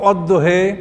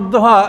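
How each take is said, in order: First: The word ends with a fronted 'eh' vowel. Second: The word ends with an open 'ah' vowel. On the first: This is how one tribe read the word. "এটাকে কোনো জাতি পড়তো অদ্দহে" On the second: This is the common reading of the word. "যেমন অদ্দহা"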